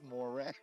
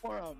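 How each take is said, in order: First: The second syllable sounds like 'ran'. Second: The second syllable sounds like 'ron'. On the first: The speaker calls it right. "It's Moran" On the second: The speaker calls it wrong. "D Wave is not Moron"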